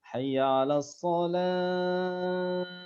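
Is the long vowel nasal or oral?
nasal. The long vowels are pushed through the nose. The speaker calls it wrong. "masuk hidung"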